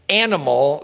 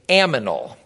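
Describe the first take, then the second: First: The n sound comes before the m. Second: The m sound comes before the n. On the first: The speaker calls it right. "instead of saying animal" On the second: The speaker calls it wrong. "they would say aminal, A-M-I-N-A-L"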